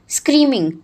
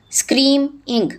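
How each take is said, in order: First: Said in the usual way. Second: screaming split as scream, pause, ing; broken into syllables. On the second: Shown as a demonstration. Teacher dividing a word for pupils, screaming syllable by syllable as scream-ing. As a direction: say screaming in two separate beats, scream and ing. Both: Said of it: "break them in the syllables".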